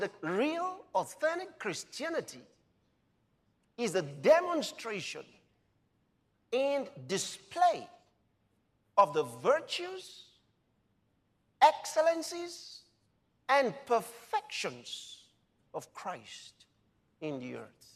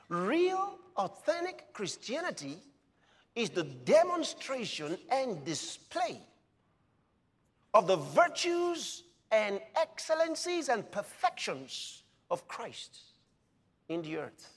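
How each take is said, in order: First: It is said slowly. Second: It is said fast.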